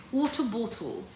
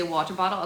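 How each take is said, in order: First: British accent on water bottle. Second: Said in the usual way. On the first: Shown as a demonstration. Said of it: "He specifically wants you to say water bottle". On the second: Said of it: "specifically wants you to say water bottle".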